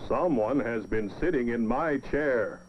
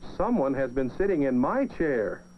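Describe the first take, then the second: First: It is said in a big, deep voice. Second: It is said in a middle-sized voice.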